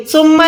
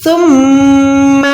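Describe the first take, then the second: First: ثم with a short m; ثم without nasal hold; ثم, the wrong reading; wrong no ghunna. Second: ثم with the m held in the nose a second; ثم with full ghunna; nasal ghunna. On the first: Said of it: "ثم نہیں ہے". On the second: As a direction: hum the doubled m in ثم. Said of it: "میم پہ ہم نے گننا کرنا ہے". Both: Shown as a demonstration.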